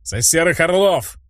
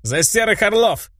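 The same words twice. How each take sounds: First: Хор зала, чуть ниже и ровнее тоста; подхватить тост за всех; зал подхватывает. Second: Громкий бодрый тост, выше голосом; провозгласить тост от души. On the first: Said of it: "поддержал меня зал". (зал подхватывает тост героя) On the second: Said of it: "сказал я следующий тост". (тост, поднятый за столом) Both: A narrator's reading.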